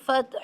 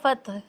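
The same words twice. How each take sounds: First: The final throaty h sound is clearly pronounced. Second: The final throaty h sound is weak or missing. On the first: The speaker calls it right. "हालांकि वहाँ हा है आखिर में" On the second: The speaker calls it wrong. "लोग इस तरह फतह"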